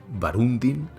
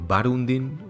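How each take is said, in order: The two takes are said the same way.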